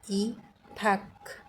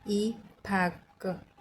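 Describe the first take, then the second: Both takes have the same delivery.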